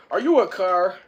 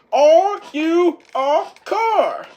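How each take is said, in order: First: Said in the usual way. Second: High, loud, slow interrogation; slow drill-sergeant shout. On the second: Retold or imitated. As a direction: bark it slowly, word by word. Whiplash repeats, drilling Turbo.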